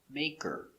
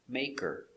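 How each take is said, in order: The two takes are said the same way.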